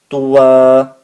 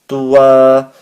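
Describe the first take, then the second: First: The word ends with a long a vowel. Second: The word ends with a long a vowel.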